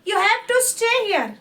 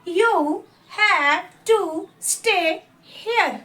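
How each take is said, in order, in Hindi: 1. वाक्य तेज़ी से बोला गया है। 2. वाक्य धीरे बोला गया है। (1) "दो बार मैं इसको फास्ट एज अ प्रोनाउंसिएशन पढ़ूंगी" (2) "मैं एक बार स्लो पढ़ूंगी"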